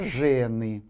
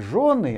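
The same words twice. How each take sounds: First: It is said with an 'e' vowel sound. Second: It is said with a 'yo' vowel sound. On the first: It means women. The speaker calls it right. "такого звука и такой буквы «ё» э, нет в славянском языке, там только «жены»" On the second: It means wives. The speaker calls it wrong. "Не жены"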